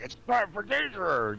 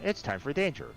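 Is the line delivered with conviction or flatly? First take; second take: conviction; flatly. First: It is said forcefully, with conviction. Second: It is said flatly, without conviction. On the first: The actor put effort into the line. The speaker calls it right. "It it sounds like he's doing it like with conviction" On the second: The actor put little effort into the line. The speaker calls it wrong. "It's like, really? Huh?"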